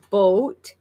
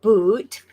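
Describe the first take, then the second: First: "boat" drawn out slowly with a long o; Canadian "about". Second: "boot" drawn out slowly with oo; wrong Canadian "about". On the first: Teaching the real sound of about, slow long-o "boat". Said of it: "It's closer to". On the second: Showing the mistaken version of about, slow oo "boot". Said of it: "It's closer to boat than boot". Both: Shown as a demonstration.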